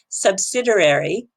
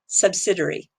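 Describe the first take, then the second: First: The word is said with an American pronunciation. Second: The word is said with a British pronunciation. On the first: "One is the American way" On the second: "or you can say it the British way"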